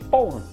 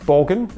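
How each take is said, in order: First: The name is pronounced the Danish way. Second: The name is pronounced the English way. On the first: "As we pronounce it" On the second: "as you pronounce it"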